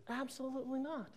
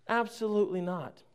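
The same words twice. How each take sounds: First: High, very soft little voice; mock-coy denial. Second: Said in the usual way. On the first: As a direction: deny it in a tiny high-pitched voice. Answers own question, then repeats straight.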